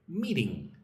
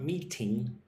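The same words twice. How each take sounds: First: The middle T is soft, like a D. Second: The middle T is a crisp, hard T. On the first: The speaker calls it right. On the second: The speaker calls it wrong.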